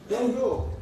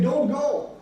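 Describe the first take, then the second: First: "Don't go" said level and plain, falling at the end; second take of don't go. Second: "Don't go" with "Don't" lifted higher and stressed; first take of don't go. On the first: Preacher giving the contrasting take of "Don't go", settled falling tune. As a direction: let "Don't go" settle down to a fall. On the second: Preacher demonstrating "Don't go" to the congregation, lifted stress on "Don't". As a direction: lean up on "Don't" in "Don't go". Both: Shown as a demonstration. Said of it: "But if you say".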